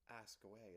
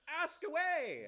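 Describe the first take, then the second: First: It is said in a flat, plain way. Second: It is said in an excited way.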